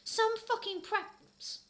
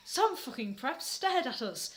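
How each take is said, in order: First: High drawn-out sneer; mock sneer. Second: Said in the usual way. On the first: Reader sneering about the preps, slow high sneer.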